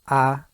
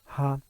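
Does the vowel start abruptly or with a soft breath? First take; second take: abruptly; soft breath. First: The vowel starts with a hard, abrupt onset. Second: The vowel starts with a small breathy onset. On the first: "that will be a harsh attack" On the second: "I just put a small H sound before"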